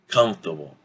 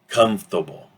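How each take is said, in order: First: The middle sounds are dropped, contracting the word. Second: The same.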